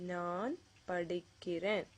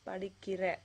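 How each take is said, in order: First: The word ends with an n sound. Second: The word ends without an n sound. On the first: The speaker is saying they are studying. The speaker calls it right. "it usually ends with that na sound" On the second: It has a totally different meaning. The speaker calls it wrong. "Not படிக்கிற"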